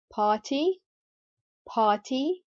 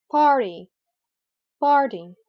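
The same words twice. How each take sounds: First: "party" with a true t, not a d; British clear T. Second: "party" with r sounded and t tapped as a soft d; American flap T. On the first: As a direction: say party British-style, "pah-tee". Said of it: "pronounce the R regularly without any change". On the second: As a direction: say party American-style, like "pardy". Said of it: "turn the t sound into a soft d sound". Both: Shown as a demonstration.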